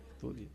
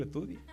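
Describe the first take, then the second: First: "Estudie" repeated much softer, falling and weighted; quiet emphatic repeat. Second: Said in the usual way. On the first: Shown as a demonstration. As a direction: drive "Estudie" home softly. ("Estudie" repetido bajito y firme, cayendo) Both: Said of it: "fájese primero".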